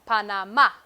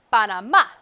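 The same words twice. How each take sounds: First: Panamá with a firm stressed final A; model for repeating. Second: Panamá with the last A hit hard and loud; stress on final A. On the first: Teacher modelling Panamá for students to repeat. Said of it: "Repite, por favor". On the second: Teacher modelling the accented A, loud stress. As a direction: punch the final syllable of Panamá. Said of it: "un tilde en la A". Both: Shown as a demonstration.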